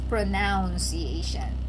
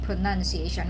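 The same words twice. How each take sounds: First: The second syllable sounds like 'noun'. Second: The second syllable sounds like 'nun'. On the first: The speaker calls it wrong. "We don't have a word such as pronunciation" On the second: The speaker calls it right. "But we have pronunciation"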